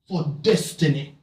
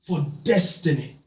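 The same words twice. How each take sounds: The two takes are said the same way.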